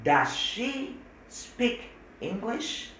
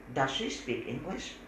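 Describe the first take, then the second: First: Very slow, high English model; very slow demo. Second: Said in the usual way. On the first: Shown as a demonstration. Teacher slowly models the question. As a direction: drag each word out for students. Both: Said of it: "Coba bicara tadi".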